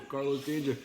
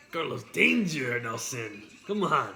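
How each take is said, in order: First: Lightly put-on Spanish accent on the name; Carlos Danger accent. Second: Louder, hammed-up mock Spanish accent; Carlos Danger accent. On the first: Showing Nelson the nickname, mild mock Spanish accent. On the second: Urging Nelson on, loud mock Spanish accent. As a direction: punch the name in a big fake Spanish accent. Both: Shown as a demonstration. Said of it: "I had an accent".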